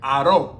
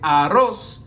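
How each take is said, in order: First: The final consonant sound is dropped. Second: The final consonant sound is pronounced. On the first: "they don't use a lot of S's, and also Z's" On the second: "instead of saying arroz"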